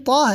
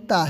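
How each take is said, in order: First: تا heavy, with a rounded aw vowel; full, rounded تا; thick t. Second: تا light, with a plain open aa; light, flat-vowelled تا; thin t. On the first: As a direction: open the mouth full on تا. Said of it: "موٹا پڑھتے ہیں". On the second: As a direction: keep تا thin, no rounding. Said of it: "اس کو پتلا پڑھتے ہیں". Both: Shown as a demonstration.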